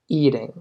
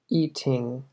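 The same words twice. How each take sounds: First: The middle t sounds soft, like a d. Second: The middle t is crisp with a puff of air. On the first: The speaker calls it right. "Es más eating" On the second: The speaker calls it wrong. "normalmente no se escucha como eating"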